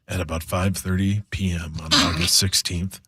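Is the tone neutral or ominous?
ominous. It is read in a dramatic, ominous tone.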